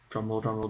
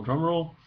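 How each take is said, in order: First: Said in the usual way. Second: "drum roll" sung out higher; rising drum roll. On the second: Shown as a demonstration. Announcing the next accent, "drum roll" lifted higher. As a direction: pitch "drum roll" up with mock suspense.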